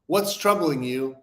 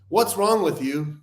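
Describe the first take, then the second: First: Slow, gentle "What's troubling you?" with concern; soft and caring. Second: Slow, pointed "What's wrong with you?" with a blaming edge; accusing. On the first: Showing the gentle way to ask a friend what's wrong, soft and caring. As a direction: ask "What's troubling you?" kindly, inviting him to open up. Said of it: "comes off in such a soft, digestible way". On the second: Showing how a blunt question puts a friend on the defensive, accusing. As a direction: make "What's wrong with you?" sound like an attack. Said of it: "comes off like an assassination".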